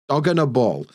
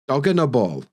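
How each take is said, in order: First: The middle words blur into a weak 'unna'. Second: The middle words blur into a weak 'unna'.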